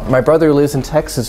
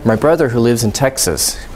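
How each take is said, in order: First: It flows smoothly without any break. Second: It has a break with rising intonation. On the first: It identifies which brother is meant. "So this would be" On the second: It just adds extra information about the brother. "a break or rising intonation here"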